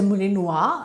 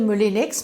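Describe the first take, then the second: First: The name is said with a showy French sound. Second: The name is said plainly, English style. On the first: "they've got a lovely language, but it sounds so pretentious" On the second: "maybe it's not a Moulinex"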